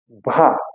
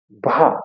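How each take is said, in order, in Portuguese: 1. O R é um som arrastado na garganta. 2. O R é um som arrastado na garganta.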